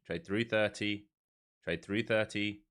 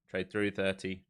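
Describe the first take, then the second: First: Slower, leaning on thirty; slow, clear repeat. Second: Said in the usual way. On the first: Shown as a demonstration. Streamer repeating his order to the trading tool, slow and deliberate. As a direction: spell it out slowly for the machine.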